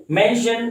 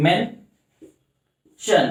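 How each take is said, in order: First: Said in the usual way. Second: "mention" broken in two with a long pause; slow syllable-by-syllable "mention"; split into syllables. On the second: Shown as a demonstration. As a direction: say "mention" as men, pause, shun. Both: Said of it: "दो अलग अलग sound create करें".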